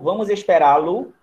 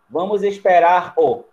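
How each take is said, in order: First: The r is dropped and an l joins the o. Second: The verb keeps its r before a bare o. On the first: The speaker calls it right. "Tiro o R" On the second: The speaker calls it wrong. "Ia ficar estranho"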